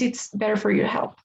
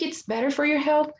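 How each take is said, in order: First: The voice falls at the end like a statement. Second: The voice rises at the end like a question. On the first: The speaker sounds confident, stating a fact. The speaker calls it right. "I'm changing the, the tone of my voice" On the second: The speaker sounds unsure of the claim. The speaker calls it wrong. "sounding like you were asking questions"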